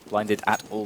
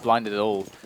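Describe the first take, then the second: First: Each word is articulated clearly and separately. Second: The words are run together and mumbled. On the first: The speaker calls it right. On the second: The speaker calls it wrong. "Should enunciate my words"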